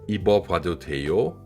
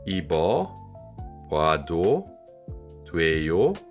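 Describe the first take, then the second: First: It is said at normal speed. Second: It is said more slowly.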